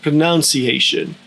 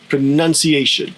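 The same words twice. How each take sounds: First: The second syllable sounds closer to 'noun'. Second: The second syllable sounds like 'nun'. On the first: "A little closer to noun, but less strongly pronounced" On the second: "with the second syllable being none"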